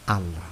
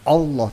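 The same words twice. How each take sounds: First: The word begins with an 'a' vowel sound. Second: The word begins with an 'o' vowel sound. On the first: The speaker calls it right. "a bukan o, ... tapi Allah" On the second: The speaker calls it wrong. "bukan Allah"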